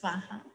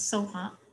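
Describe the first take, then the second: First: The word begins with a 'swa' sound. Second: The word begins with a plain 'so' sound. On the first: This is the Sanskrit way of saying it. "in Sanskrit it's swaha" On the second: This is the Tibetan way of saying it. "sometimes Tibetans pronounce soha"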